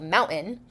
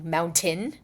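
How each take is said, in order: First: The T is said without a puff of air. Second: The T is said with a puff of air. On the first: This is the more standard form. "the other version that's more standard" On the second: This is an overcorrected, non-standard form. "a hypercorrection to mountain, which is not standard"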